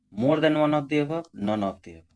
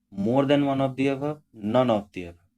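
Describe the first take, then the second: No difference in how they are said.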